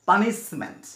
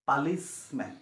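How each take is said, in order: First: The second syllable starts with an n sound. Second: The second syllable starts with an l sound. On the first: The speaker calls it right. "এইটো হৈছে পানিচমেণ্ট" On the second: The speaker calls it wrong. "পালিচমেণ্ট নহয়"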